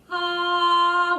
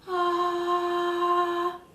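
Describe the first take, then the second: First: It is said with no breathiness. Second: It is said with a breathy voice.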